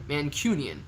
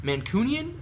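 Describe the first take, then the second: First: "Mancunian" with "cyoon", falling; second trial pronunciation. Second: "Mancunian" with "coon", rising high; trial pronunciation. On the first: Streamer testing the word on viewers, settled trial pronunciation. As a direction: say "Mancunian" as man-KYOO-nian, settling downward. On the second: Streamer unsure of the word for Manchester people, questioning trial pronunciation. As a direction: try "Mancunian" as man-COON-ian, asking. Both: Shown as a demonstration. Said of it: "I don't know how to do it".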